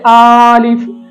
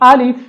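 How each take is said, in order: First: The first vowel is drawn out long. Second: Neither vowel is drawn out long. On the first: The speaker calls it wrong. "हमजा को खींच कर पढ़ा जाता है" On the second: The speaker calls it right. "इसकी असल प्रोनाउंसिएशन है"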